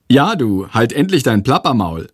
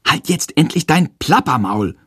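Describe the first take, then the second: First: A mildly cheeky mocking echo. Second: Blurting it out a touch louder than meant; a bit too loud. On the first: Classmate mocks Jendrik's outburst, lightly cheeky. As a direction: parrot the line back, lightly teasing. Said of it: "kommentiert er frech". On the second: Acted. Boy blurts at chattering teacher, a bit too loud. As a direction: snap it out, slightly too loud. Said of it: "ruft er aus Versehen etwas zu laut".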